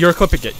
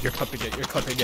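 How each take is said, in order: First: Said in the usual way. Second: Very soft, low murmur; quiet, low-voiced repetition; hushed repeat. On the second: Real, not acted. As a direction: drop right down and murmur it. Repeats it much more softly.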